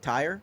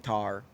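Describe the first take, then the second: First: The vowel is a full glide, sounding like tire. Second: The vowel is flattened, sounding like tar.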